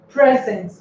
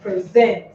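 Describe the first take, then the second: First: The stress is on the first syllable. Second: The stress is on the last syllable. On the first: It is a noun meaning a gift. "that is a gift" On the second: It is a verb meaning to give. "This is a verb, and this is the last syllable that bears the stress"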